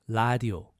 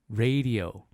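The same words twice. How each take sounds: First: It is said with a Korean L sound. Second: It is said with an English R sound.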